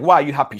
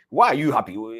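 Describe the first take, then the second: First: It sounds warm and friendly. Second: It sounds suspicious and accusing.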